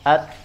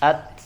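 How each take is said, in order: No difference in how they are said.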